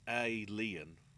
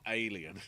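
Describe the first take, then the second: First: There is a short gap after the first sound. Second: It is said smoothly as one word. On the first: It is a wordplay title with a space. The speaker calls it right. "give some indication of the fact there's a space between the A and the L" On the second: It is the ordinary word. The speaker calls it wrong. "You don't just say it as one thing"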